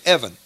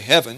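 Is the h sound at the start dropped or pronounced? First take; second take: dropped; pronounced. First: The word begins without an h sound. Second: The word begins with an h sound. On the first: "you say Evan. So you drop H's" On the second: "You don't say heaven"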